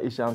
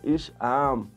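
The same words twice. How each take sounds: First: The name is said in a plain, neutral way. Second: The name is called out in an angry way. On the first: This is the ordinary way of saying the name. "In plaats van Isham" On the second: The mother is angry or calling for him. "zegt ze Isham. Dat zegt mijn moeder altijd"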